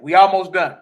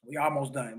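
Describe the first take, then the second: First: Louder, punchy announcement; rallying the stream audience, loud; emphatic. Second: Quieter, murmured repeat; echoing himself to the stream audience, soft; softer echo. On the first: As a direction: call it out to the room. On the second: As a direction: drop the voice, say it to yourself. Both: Real, not acted. Repeats phrase, loud then soft.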